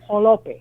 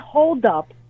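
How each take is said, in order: First: It is run together, starting with a j-like sound. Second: It is two clear words starting with h. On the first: "that is what was pronounced as jolope" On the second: "The word hold up"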